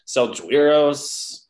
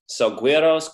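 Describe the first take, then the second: First: The G is said as a soft sound. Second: The G is said as a hard sound. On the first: The speaker calls it wrong. "where does the soft G come in?" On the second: The speaker calls it right. "No, it's uh"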